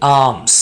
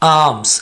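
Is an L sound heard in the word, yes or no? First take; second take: no; no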